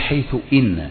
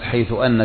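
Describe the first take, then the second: First: The particle after haythu starts with an 'i' vowel. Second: The particle after haythu starts with an 'a' vowel. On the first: The speaker calls it right. "والصحيح حيث إن، فإن إن تكسر همزتها بعد حيث" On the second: The speaker calls it wrong. "من الأخطاء الشائعة"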